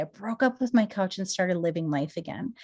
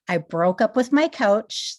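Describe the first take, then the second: First: Said in the usual way. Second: Slow, louder "I broke up with my couch" with a falling end; catchphrase emphasis. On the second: Shown as a demonstration. Her signature line to viewers, slow and punched. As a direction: land "broke up with my couch" slowly like a slogan. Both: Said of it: "That's what I always say".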